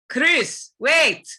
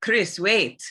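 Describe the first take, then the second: First: Much higher and louder, a sharp urgent call; heavy African accent. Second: Said in the usual way. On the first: Shown as a demonstration. Sheva calling to partner Chris in a heavy accent. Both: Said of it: "It's very low, this register".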